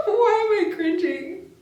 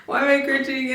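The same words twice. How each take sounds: First: Much higher, laughing, slow; embarrassed laughter. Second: Said in the usual way. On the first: Real, not acted. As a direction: giggle helplessly through it. Laughing while reading spicy lines.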